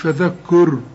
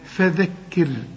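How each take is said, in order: First: The word is said with rounded lips. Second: The word is said with lips spread in a smile. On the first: The speaker calls it wrong. "شوف مش فذكر" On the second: The speaker calls it right. "رجع شفايفك على هيئة ابتسامة"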